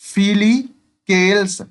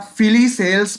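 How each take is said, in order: First: The 'c' is said as a 'k' sound. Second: The 'c' is said as an 's' sound. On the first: "केल्स ना बोल के" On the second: "मैं सेल्स ही बोलता हूं"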